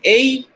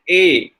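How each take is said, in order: First: "A" gliding from "eh" to "ee"; diphthong. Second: "A" as one long steady "eh"; lengthened monophthong. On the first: Lecturer showing the English vowel, "A" as a diphthong. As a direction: let "A" glide up as "ay-ee". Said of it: "they may again lengthen it". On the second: Lecturer showing how Indians lengthen it, "A" long and pure. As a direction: hold "A" without a glide. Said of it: "lengthen it and will make it A long". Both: Shown as a demonstration.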